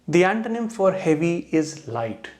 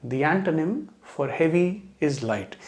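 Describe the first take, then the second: Both takes have the same delivery.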